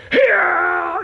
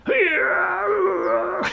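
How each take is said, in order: First: Loud, much higher mock cheer; mock battle cry. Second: High, loud strained cheer; hammed-up idle character yelling; mock cry. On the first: Gamer showing how a fighter should yell, loud mock cry. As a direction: belt it like a charging warrior. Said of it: "you'd be going". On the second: Gamer mocking a character standing there, high strained cry. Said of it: "stood there going".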